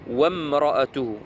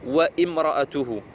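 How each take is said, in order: First: The 'wa' flows directly into the 'm'. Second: An extra 'i' vowel is said before the 'm'. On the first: The speaker calls it right. "Wam de wa, on va directement sur mim" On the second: The speaker calls it wrong. "j'ai eu des cas, donc des frères euh, qui lisaient wa imra'atuhu. Non"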